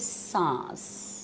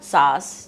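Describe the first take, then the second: First: The word has a nasal n sound. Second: The word has no nasal n sound. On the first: The speaker calls it right. "This is सांस" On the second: The speaker calls it wrong. "This is not सास"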